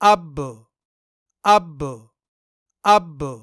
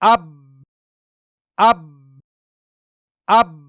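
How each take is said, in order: First: The final b bounces with a slight echo. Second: The final b stops dead with no echo. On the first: "कलकला के साथ" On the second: "बिना कलकला के"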